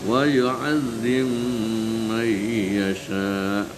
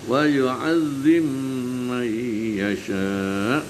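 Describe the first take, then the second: No difference in how they are said.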